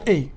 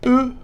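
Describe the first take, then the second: First: The letter is named with its Dutch sound. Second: The letter is named with its French sound. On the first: "en néerlandais ça se prononce E" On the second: "E en français"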